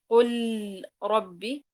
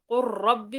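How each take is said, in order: First: The L is pronounced clearly before the R. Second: The L is merged into a doubled R. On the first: The speaker calls it wrong. "وليست قل ربي، لا بل تدغم اللام" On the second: The speaker calls it right. "هذه طبعا تقرأ قل ربي"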